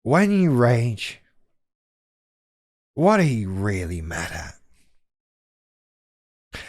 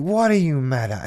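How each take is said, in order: First: Deliberately condescending, very slow; patronizing. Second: Said in the usual way. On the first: Shown as a demonstration. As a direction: draw it out like a smug therapist. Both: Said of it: "I'm doing that on purpose".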